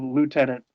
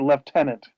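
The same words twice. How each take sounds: First: It is said the American way. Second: It is said the British way. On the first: "instead of lieutenant" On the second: "if the British still say lieutenant"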